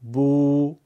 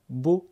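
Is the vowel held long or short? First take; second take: long; short. First: The vowel is long, two beats. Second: The vowel is short, one beat. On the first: "با واو مدی دو برابر" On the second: "با ضمه یک ضربیه"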